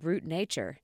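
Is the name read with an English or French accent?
English. It is read with an English pronunciation.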